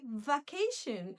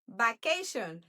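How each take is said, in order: First: The word starts with a v sound. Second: The word starts with a b sound. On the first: "We're not going to say vacation" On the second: "we pronounce like b"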